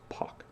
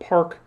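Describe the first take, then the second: First: No R sound is heard after the vowel. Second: An R sound is heard after the vowel. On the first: This is the actual Korean name. The speaker calls it right. "The Korean last name is Pak" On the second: This is how Americans read the spelling. The speaker calls it wrong. "because they'll pronounce it Park"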